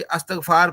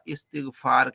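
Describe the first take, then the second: First: The second syllable has the vowel 'a'. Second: The second syllable has the vowel 'i'. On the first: The speaker has not studied grammar. The speaker calls it wrong. "तो आपको मालूम हो जाता है कि इसने सरफ़-नाहव नहीं पढ़ी" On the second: The speaker has studied grammar. The speaker calls it right. "ये इस्तग़फ़ार ना कहता बल्कि क्या कहता? इस्तिग़फ़ार कहता"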